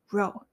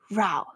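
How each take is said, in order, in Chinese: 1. Row的发音和go押韵。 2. Row的发音和cow押韵。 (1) "一排row" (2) "吵架row"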